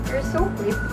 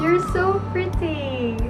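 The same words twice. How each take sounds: First: It is said in a disappointed, let-down tone. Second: It is said in a happy, cheerful tone. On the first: "in the disappointed way" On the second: "in a happy way"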